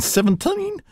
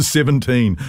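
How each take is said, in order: First: SEVENTEEN in an overdone Kiwi accent, vowels distorted and drawn out; exaggerated Kiwi vowels. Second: Said in the usual way. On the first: Shown as a demonstration. Presenter reading out a listener's accent mishap, exaggerated Kiwi vowels. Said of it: "learn not to say". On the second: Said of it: "for seventeen".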